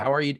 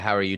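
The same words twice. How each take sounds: First: Said warmly and attentively, with genuine interest. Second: Said flatly and hesitantly, without real interest. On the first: The asker really wants to know the answer. The speaker calls it right. "That's a real question" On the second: The asker does not really care about the answer. The speaker calls it wrong. "That's not a real question"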